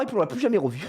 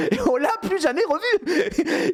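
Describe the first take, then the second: First: Said in the usual way. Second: High, slow, laughing punchline; laughing repeat. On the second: Real, not acted. Narrator repeating the punchline to viewers, slow laughing. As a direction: savour it through laughter.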